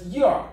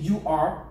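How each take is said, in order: First: Both words are shortened and run together. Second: Both words are pronounced fully and clearly. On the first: The speaker calls it right. "ça va être you are" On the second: The speaker calls it wrong. "il ne va pas être prononcé you are"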